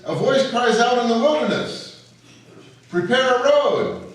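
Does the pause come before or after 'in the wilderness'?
after. The pause falls after 'in the wilderness'.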